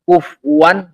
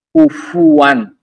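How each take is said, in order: First: The f is followed directly by w. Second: A u vowel comes between f and w. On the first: The speaker calls it wrong. "enggak ada" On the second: The speaker calls it right. "Kalau pakai waw maka fa-nya di dhammah"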